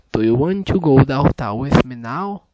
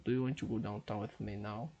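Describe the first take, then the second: First: Loud, deliberate speech into the mic; second try so the app accepts it, spoken loud; loud careful repeat. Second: Said in the usual way. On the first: Shown as a demonstration. Loud, clear repeat for the machine. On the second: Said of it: "E agora?".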